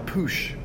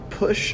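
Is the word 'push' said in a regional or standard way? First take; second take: regional; standard. First: The word push has an unusual regional sound. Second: The word push has its usual standard sound.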